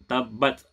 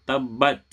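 No difference in how they are said.

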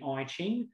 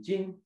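First: The name is said with an Australian pronunciation. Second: The name is said closer to its original pronunciation. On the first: The speaker calls it wrong. "for those who are Australian" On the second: The speaker calls it right. "it's actually the I Ching"

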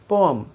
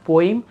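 First: The second vowel sounds like 'uh'. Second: The second vowel sounds like 'ee'. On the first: The speaker calls it right. "Simple पोअम" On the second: The speaker calls it wrong. "This is not पोइम"

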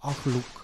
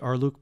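First: The R is made deep in the throat. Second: The R is a plain, ordinary sound. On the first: "the R needs to be a little bit more glottal" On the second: "I know I could just say Arluk"

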